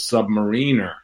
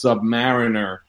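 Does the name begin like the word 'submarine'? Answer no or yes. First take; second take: Yes; No. First: The start sounds like the word 'submarine'. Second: The start does not sound like 'submarine'. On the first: The speaker calls it wrong. "like submarine" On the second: The speaker calls it right. "I always knew it was Submariner"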